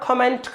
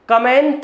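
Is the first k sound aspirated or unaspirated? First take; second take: aspirated; unaspirated. First: The first k sound has a breath puff. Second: The first k sound has no breath puff. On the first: The speaker calls it right. "खा से खरगोश" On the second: The speaker calls it wrong. "का से कबूतर की जगह"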